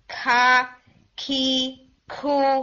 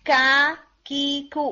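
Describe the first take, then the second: First: The k is followed by an added h sound. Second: The k has no added h sound after it. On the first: The speaker calls it wrong. "کھے کے اندر ہم نا ہے ایڈ کرتے ہیں, تو ہم عربک میں کھا نہیں بولیں گے" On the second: The speaker calls it right. "ناٹ ایون کا, ناٹ ایون کھا, ان دو ساؤنڈز کے بیچ میں"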